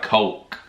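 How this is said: The vowel sounds like general American English. This is how Americans are assumed to say it. "our impression of a general American accent would be like Coke"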